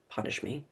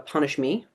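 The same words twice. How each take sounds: First: A breathy whispered repeat, almost under the breath; whispered echo. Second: Said in the usual way. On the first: Real, not acted. Coach to her webinar audience, repeating the hurt in a whisper.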